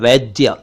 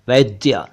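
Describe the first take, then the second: The two takes are said the same way.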